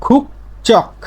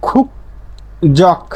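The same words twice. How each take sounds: First: খুক চক in two separate beats, voiceless ch opening চক; corrected ch reading. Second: খুক জক in two separate beats, keeping the j; uncorrected j reading. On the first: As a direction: say খুক চক with ch in place of j. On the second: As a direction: say খুক জক with a voiced j starting জক. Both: Shown as a demonstration. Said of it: "না হয়ে কি হবে?".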